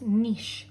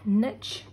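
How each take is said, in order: First: The word rhymes with quiche. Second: The word does not rhyme with quiche. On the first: The speaker calls it right. "it is pronounced niche, like quiche" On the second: The speaker calls it wrong. "This word is not pronounced niche"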